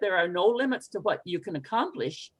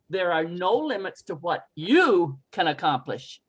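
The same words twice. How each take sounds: First: The word 'you' is not given extra stress. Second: The word 'you' is given extra stress. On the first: It is like talking to oneself. "if you just say it" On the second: It aims to inspire someone else. "you might change the emphasis to"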